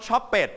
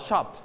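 First: "shop it" with ED as a full extra syllable; mispronounced "shop it", ending sounded as "pet"; wrong ending. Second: "shopped" in one syllable with a light final t; softened t ending. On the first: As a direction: say "shop it" in two beats, like "shop-pet". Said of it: "we don't pronounce shop it". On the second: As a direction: tuck the t of "shopped" in, no extra vowel. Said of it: "and then volume down". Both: Shown as a demonstration.

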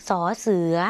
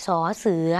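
No difference in how they are said.

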